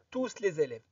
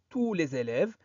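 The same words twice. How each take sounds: First: The S of tous is pronounced. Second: The S of tous is silent. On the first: The speaker calls it wrong. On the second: The speaker calls it right.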